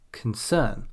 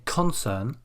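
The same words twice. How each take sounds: First: "concern" as con-CERN; stress on second syllable. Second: "concern" wrongly as CON-cern; stress on first syllable. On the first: Teacher gives the correct noun, stress on CERN. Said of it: "we say". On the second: Teacher shows what we don't say, stress on CON. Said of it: "we don't say". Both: Shown as a demonstration.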